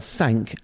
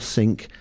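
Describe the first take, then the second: First: The vowel is like the one in 'sank'. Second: The vowel is like the one in 'sink'. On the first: "as in the boat sank" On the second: "as in the kitchen sink"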